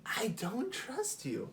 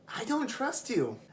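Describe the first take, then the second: First: Slow, quieter "I don't trust you"; slower softer repeat. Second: High, firm "I don't trust you"; blunt refusal. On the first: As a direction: let the second one sink in slowly. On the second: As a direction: say it flatly to her face. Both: Retold or imitated. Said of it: "And I was just like".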